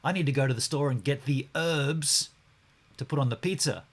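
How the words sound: It is said in an American accent.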